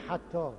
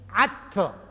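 First: The word begins with a breathy h sound. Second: The word begins with a throaty ayn sound. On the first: This is the standard Quraysh pronunciation. "حتی را نمیتونه بگه حتی" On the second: "میگه عطی"

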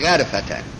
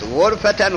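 First: The first vowel is an open 'a' sound. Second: The first vowel is a rounded 'u' sound. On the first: "به فتح غین" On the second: "به ضم غین"

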